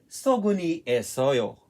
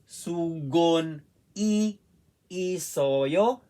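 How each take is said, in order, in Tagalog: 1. Maayos na nakakabit ang marker sa pangngalan. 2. Hiwalay ang marker sa pangngalan. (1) "isabay po natin na pagbasa" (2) "Hindi pwedeng babasahin natin ganito"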